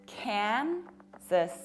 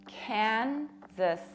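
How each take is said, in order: The two takes are said the same way.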